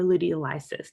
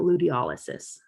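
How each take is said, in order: First: Luteolysis stressed on LY: loo-tee-oh-LY-sis; luteolysis, alternative pronunciation. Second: Luteolysis stressed on OL: loo-tee-OL-uh-sis; luteolysis, first pronunciation. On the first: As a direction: say luteolysis with LY like "lie". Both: Shown as a demonstration. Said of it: "depending on how you wanna say it".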